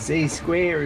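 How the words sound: The letter Z is said the American way.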